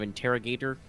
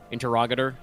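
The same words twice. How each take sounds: First: It is said with plain English intonation. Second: It is said with Latin-sounding intonation. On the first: The speaker calls it wrong. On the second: The speaker calls it right.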